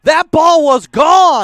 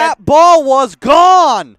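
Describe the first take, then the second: First: Slow, loud, stress on gone; emphatic. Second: Slower, falling stress on gone; insist, drawing out gone; emphatic. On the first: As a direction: lean hard on the word gone. Caller insists ball was out. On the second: Caller insists again. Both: Real, not acted.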